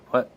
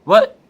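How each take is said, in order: First: Said in the usual way. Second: High, loud startled what; indignant shout. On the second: Retold or imitated. Spider-Man snapping at Deadpool, high loud outburst.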